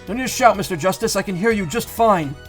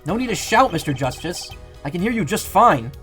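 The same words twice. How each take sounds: First: It is said in a put-on character voice. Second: It is said in his normal voice.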